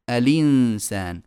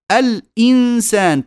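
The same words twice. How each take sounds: First: الإنسان run together as a-linsan, slow; hamza vowel transferred. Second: الإنسان split al-insan, slow; full hamza. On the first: Teacher showing naql, lam takes the hamza's vowel. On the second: Teacher showing the original, hamza fully sounded. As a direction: catch the throat after lam in الإنسان. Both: Shown as a demonstration. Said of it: "تصير".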